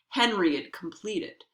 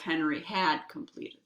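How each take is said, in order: First: The word had is reduced to a short d sound. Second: The word had is pronounced fully and clearly. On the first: "you reduce the had so that it sounds just like a duh" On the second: "instead of"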